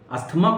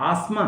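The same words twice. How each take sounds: First: अस्थमा said with a clear t, ast-ma; wrong t sounded. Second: आसमा said with no t, as-ma; silent t. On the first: Teacher showing the wrong अस्थमा with a t. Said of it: "अस्थमा नहीं बोलते हैं". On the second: Teacher showing आसमा without the t. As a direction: drop the t in आसमा, say as-ma. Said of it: "ये टी नहीं बोला जाएगा". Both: Shown as a demonstration.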